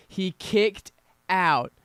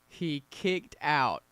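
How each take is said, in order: First: Loud, slow, drawn-out call of a near fall; excited shout. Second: Said in the usual way. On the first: Real, not acted. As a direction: belt it out as the pin breaks.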